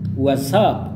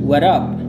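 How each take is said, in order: First: The s sound after 'what' is kept. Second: The s sound after 'what' is dropped. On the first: "Or what's up?" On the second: "Ada yang what up. Jadi melafalkannya kayak gini"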